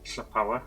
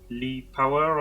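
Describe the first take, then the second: First: It begins with a hissing voiceless LL sound. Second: It begins with a plain voiced L sound. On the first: "being Welsh, the double L is a sound" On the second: "however, you'd uh, sort of pronounce that in English"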